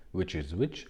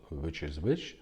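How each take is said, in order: Both takes have the same delivery.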